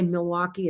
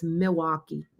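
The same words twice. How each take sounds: First: "Milwaukee" with the L clearly sounded; L pronounced. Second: "Milwaukee" as "Mi-waukee", without the L; L dropped. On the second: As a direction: swallow the L in "Milwaukee". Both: Shown as a demonstration. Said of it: "They don't ever say the L".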